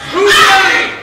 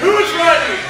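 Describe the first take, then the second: First: It is said with passion and high energy. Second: It is said with ordinary, lower energy.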